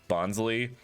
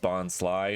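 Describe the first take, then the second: First: The last syllable sounds like lee. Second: The last syllable sounds like the word sly. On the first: The speaker calls it wrong. "not bonsley" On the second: The speaker calls it right. "bonsly is pronounced bonsly ... because it's supposed to be a sly bonsai"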